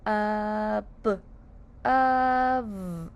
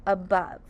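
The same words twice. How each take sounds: First: "Ab-, of" in held, separated sounds; sounded out. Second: Said in the usual way. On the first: Shown as a demonstration. Teacher says let's sound out above, drawn out. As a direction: draw out "Ab-", pause, then hold "of". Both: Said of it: "Let's sound out above".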